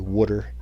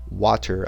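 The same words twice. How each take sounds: First: It is said with a New Jersey accent. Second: It is said with a general American pronunciation. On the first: This is how the speaker actually says it. "I say water" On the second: This is how the speaker does not say it. "I don't say W A T E R, water"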